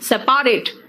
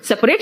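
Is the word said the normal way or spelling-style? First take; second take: spelling-style; normal. First: The word is distorted to follow its spelling. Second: The word is said with its usual pronunciation. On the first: "spelling याद करना है, pronunciation बिगाड़ दो" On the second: "सेपरेट को क्या कहते हैं?"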